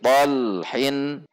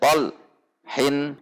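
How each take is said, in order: First: The syllables run together without a pause. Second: There is a pause between the syllables. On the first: The speaker calls it right. "antara el dengan hin di depannya juga tidak terjeda" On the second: The speaker calls it wrong. "tidak boleh tol hin dijeda"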